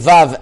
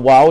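First: It starts with a V sound. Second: It starts with a W sound. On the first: The speaker calls it right. "a Vav and not a Wow" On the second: The speaker calls it wrong. "not like a W"

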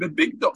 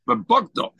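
First: The second syllable has an 'i' vowel. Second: The second syllable has an 'o' vowel. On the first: It refers to a garment, read with a chirik. "And we don't learn Bibigda" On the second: It refers to the father acting treacherously by selling her. "we really read it with a Kamus"

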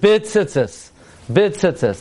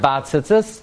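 First: The first word has a short i vowel. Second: The first word has an a vowel. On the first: The speaker calls it right. "the proper way to say the bracha" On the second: The speaker calls it wrong. "not bat tzitzis. Bat tzitzis is for tcheles"

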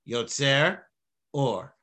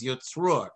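First: The words are said slowly with a pause. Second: The words are run together fast without pause.

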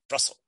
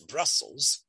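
First: The middle s sound is short and single. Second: The middle s sound is long and doubled. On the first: The speaker calls it wrong. "it's not Brussels" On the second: The speaker calls it right. "and you can hear the two S's"

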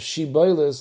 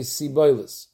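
First: The word begins with a 'sh' sound. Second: The word begins with an 's' sound. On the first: The speaker calls it right. "Instead of Shiboilis" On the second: The speaker calls it wrong. "they say Siboilis"

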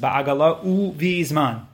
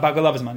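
First: The word uvizman is pronounced fully and clearly. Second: The word uvizman is swallowed and rushed. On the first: The speaker calls it right. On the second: The speaker calls it wrong. "people swallow that one. It's not"

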